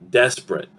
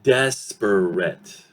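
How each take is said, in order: First: It is said quickly with two syllables. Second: It is said slowly with three syllables. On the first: "Very quick. Desperate, desperate. Two syllables" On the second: "If I say it slowly, syllabically, yes, it will sound desperate. Three syllables"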